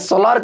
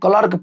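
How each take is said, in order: First: The word begins with an s sound. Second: The word begins with a k sound. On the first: The speaker calls it wrong. "स्लर्क ना पढ़ के" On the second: The speaker calls it right. "इसको हम क्लर्क पढ़ेंगे"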